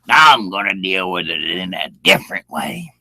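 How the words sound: It is said in a threatening, hostile tone.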